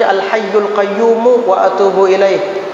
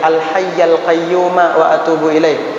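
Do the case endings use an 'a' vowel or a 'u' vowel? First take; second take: u vowel; a vowel. First: The word endings carry a 'u' vowel. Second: The word endings carry an 'a' vowel. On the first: The words are cut off as a separate predicate. "itu yang lumrah di kalangan masyarakat umum" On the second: The words describe the preceding name directly. "dibaca fathah nasab"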